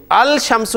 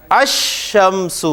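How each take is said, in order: First: الشمس with the lam sounded, al-shamsu; الشمس with a clear l; wrong reading. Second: الشمس said slowly as ash-shams, no l sound; الشمس with lam merged into the sh; lam assimilated. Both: Shown as a demonstration. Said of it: "الشمس نہیں پڑھ رہے آپ".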